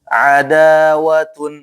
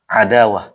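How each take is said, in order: First: The word ends with a full tun ending. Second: The word ends with a short h sound. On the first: The reading continues without stopping. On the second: The reader stops on this word.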